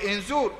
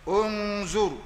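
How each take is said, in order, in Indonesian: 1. Kata ini diawali vokal i. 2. Kata ini diawali vokal u. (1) "yang baca inzur salah" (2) "Yang ketiga za baris depan"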